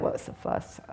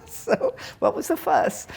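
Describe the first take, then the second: First: Quiet, nearly whispered; soft, under the breath. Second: High, slow, laughing. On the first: Teacher repeating the master's words to herself, soft. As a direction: let it slip out softly. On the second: Teacher savouring a master's last words, laughing. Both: Real, not acted. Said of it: "I like that".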